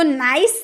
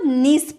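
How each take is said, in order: First: The vowel sounds like 'eye'. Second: The vowel sounds like 'ee'. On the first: The speaker calls it wrong. "इसको नाइस नहीं पढ़ेंगे" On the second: The speaker calls it right. "इसको नीस पढ़ते हैं"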